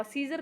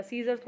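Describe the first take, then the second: First: सीजर ending on r, no final s; wrong singular form. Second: सीजर्स with s after the r; correct plural form. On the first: Teacher warns of an exam mistake, सीजर without final s. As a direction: leave the s off सीजर. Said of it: "सीजर कभी नहीं होता". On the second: Teacher gives the exam answer, सीजर्स with final s. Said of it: "सीजर्स होता है". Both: Shown as a demonstration.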